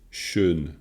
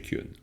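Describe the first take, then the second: First: The word starts with a sh sound. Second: The word starts with a ky sound. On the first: This is one speaker's local pronunciation of the word. "lui, il la prononce schön" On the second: This is the usual pronunciation of the word. "ça, c'est Kyun"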